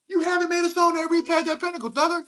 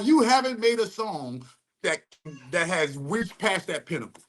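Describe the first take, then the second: First: High light voice. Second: Said in the usual way. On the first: Retold or imitated. Repeats line in high light voice.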